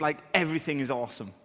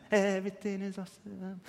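First: Said in the usual way. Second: Put-on childlike awe. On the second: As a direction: hush it like a wide-eyed child. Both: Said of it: "kids have this just".

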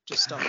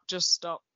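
First: A sudden high comic squeal; mock squeaky plea. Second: Said in the usual way. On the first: Begging Matt to drop the name game, squeaky high.

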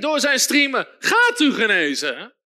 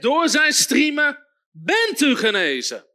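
First: "gaat" as a future promise, firm; wrong version. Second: "bent" stressed as already done, slow and firm; emphatic preached quote with "bent"; right quote. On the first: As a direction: contrast "gaat u genezen" as what Peter does not say. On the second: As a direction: declare "bent u genezen" as a finished fact. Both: Shown as a demonstration. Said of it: "Petrus zegt niet".

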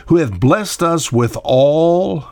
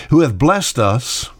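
First: "Who hath blessed us with all" drawn out slowly, higher, each word weighed; slow emphatic reread. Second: Said in the usual way. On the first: Shown as a demonstration.

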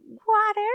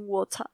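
First: Higher, louder American 'water' with a rolled-back R; American-accented 'water', R at the end; American pronunciation. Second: British 'water', open vowel and dropped R; British-accented 'water'; British pronunciation. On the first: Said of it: "en inglés americano dicen". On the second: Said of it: "en inglés británico dicen". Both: Shown as a demonstration.

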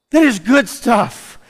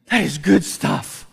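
First: Slow, louder and higher declaration; rousing emphatic repeat. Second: Said in the usual way. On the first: Shown as a demonstration. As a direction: say it again and lift it to the church.

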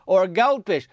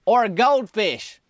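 First: "Or a goldfish" higher and louder, falling at the end; repeated reveal. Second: "Or a goldfish" slowed, higher and louder, landing heavy on "Or"; dramatic reveal. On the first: Retelling the fateful line to the audience, weighty. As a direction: say "Or a goldfish" like a doom bell. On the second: Booth worker dooming the helper with his offer, slow and ominous. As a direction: drag out "Or a goldfish" like a fateful announcement. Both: Retold or imitated. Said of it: "He said it like that".

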